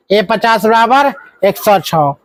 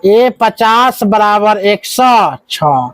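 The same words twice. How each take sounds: First: Said in the usual way. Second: Each word slowly spelled out for the class; teacher dictating the equation, drawn out slowly; slow dictation. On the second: Shown as a demonstration. Teacher dictates the equation to students, slowly and deliberately. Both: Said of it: "इसका मतलब यह होता है".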